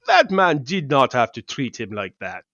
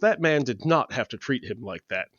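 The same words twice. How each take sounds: First: It is said in a put-on Russian accent. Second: It is said without a Russian accent. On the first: The speaker calls it right. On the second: The speaker calls it wrong.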